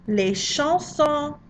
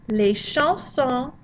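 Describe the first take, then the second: No difference in how they are said.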